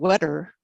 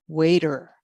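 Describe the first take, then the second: First: The first vowel is short, as in 'wet'. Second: The first vowel is long, as in 'wait'. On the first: The speaker calls it wrong. "nobody knows what a wetter is" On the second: The speaker calls it right. "the correct pronunciation would be"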